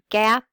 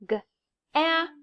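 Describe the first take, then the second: First: The word is said quickly in one piece. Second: The word is split into separate slow sounds. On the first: "read these the fast way" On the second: "sound out the word"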